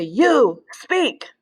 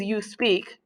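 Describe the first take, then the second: First: Stretched, stressed YOU, then SPEAK as an order; command intonation. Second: Said in the usual way. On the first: Shown as a demonstration. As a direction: order it, leaning long on YOU before SPEAK. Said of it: "if I wanna say". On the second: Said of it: "But if I wanna say".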